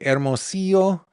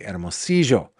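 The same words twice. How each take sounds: First: It is said with a Mexican Spanish pronunciation. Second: It is said with an Argentine Spanish pronunciation. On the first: "in Mexico they would say Hermosillo" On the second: "We say Hermosillo"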